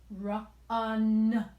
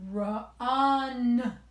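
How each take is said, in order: No difference in how they are said.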